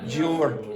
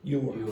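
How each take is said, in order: First: The word begins with a j sound. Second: The word begins with a y sound. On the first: The speaker calls it wrong. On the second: The speaker calls it right.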